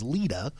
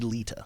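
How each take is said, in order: First: The middle consonant sounds like a soft D. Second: The middle consonant sounds like a clear T. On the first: This is how it is said in the South. The speaker calls it wrong. "that's the Southern pronunciation is Lita" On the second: This is how the name is really said. The speaker calls it right. "but it is actually Lita"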